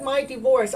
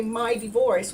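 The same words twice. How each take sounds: First: "my divorce" pushed louder on "my"; stressed my divorce. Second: Said in the usual way. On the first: Shown as a demonstration. Healer demonstrating how she used to say "my divorce", stressed. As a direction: lean hard on "my" in "my divorce". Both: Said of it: "I would go from this happy person that I am right down".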